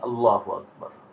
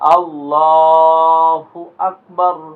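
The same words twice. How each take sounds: First: The vowels are kept short without stretching. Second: The vowels are strongly stretched and drawn out. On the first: The speaker calls it wrong. "সে নামাজে দাঁড়ায়া বলে" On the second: The speaker calls it right. "এমনে না আপনি জোরে টান দিয়া বলেন"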